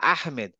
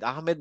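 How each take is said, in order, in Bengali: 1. 'h' ধ্বনিটি গলা থেকে ঠেলে বের করা হয়। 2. 'h' ধ্বনিটি হালকা, বুক থেকে আসে। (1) "কিন্তু বলে আহমেদ" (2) "ওরা কিন্তু বলে না"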